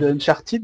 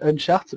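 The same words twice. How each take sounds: First: The final 'ed' is pronounced aloud. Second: The final 'ed' is silent. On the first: The speaker calls it wrong. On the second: The speaker calls it right. "c'est Uncharted. Le E D ne se prononce pas en anglais"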